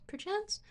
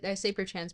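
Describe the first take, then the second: First: Perchance said with a high rising lilt, pitch lifted well up; posh perchance. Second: Said in the usual way. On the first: Shown as a demonstration. A streamer teasing chat with a posh perchance. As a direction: toss off perchance like a mock-fancy aristocrat. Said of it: "I say perchance, but not really". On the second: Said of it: "but not really".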